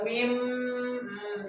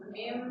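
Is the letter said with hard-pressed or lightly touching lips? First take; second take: hard-pressed; lightly touching. First: The lips are pressed together hard. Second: The lips only touch together lightly. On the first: The speaker calls it wrong. "jangan terlalu begitu banget, jangan terlalu ditekan ya" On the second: The speaker calls it right. "Mim gitu"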